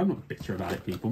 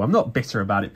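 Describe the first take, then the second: First: Much softer, muttered under the breath; quiet grumble. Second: Said in the usual way. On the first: Shown as a demonstration. To viewers, he mutters that he isn't bitter. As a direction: mutter it like you don't mean it. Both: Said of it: "Maybe I am just a little bit bitter".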